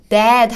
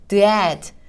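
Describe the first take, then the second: First: The sounds are joined into one smooth word. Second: The sounds are split apart with a break. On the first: "더 자연스럽게 that 하고 발음" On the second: "처음에는 the, add 이렇게 발음해서"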